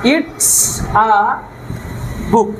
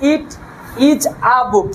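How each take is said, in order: First: 'It is' is contracted into one syllable. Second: 'It is' is said as two full words. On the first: It sounds modern and natural. The speaker calls it right. "ইট ইজ কে একসঙ্গে করলে হবে ইটস" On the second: It sounds old-fashioned. The speaker calls it wrong. "ইট ইজ a বুক বললে সেই পুরনো পুরনো ভাব"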